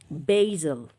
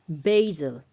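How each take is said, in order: First: The word is said in an American accent. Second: The same.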